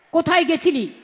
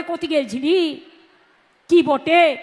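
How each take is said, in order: First: Said in the usual way. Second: Birbhum village Bengali, "গেছিলি" stretched and "কি বটে?" tagged on; rustic Birbhum lilt on "কি বটে?"; Birbhum dialect. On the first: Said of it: "এখানে যেমন বলে". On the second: Shown as a demonstration. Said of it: "ওরা বলে".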